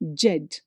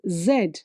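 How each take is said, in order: First: The letter name begins with a j sound. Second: The letter name begins with a z sound. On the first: The speaker calls it wrong. "Actually, people say Jed" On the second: The speaker calls it right. "it is Z"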